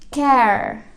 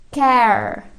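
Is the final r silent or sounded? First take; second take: sounded; sounded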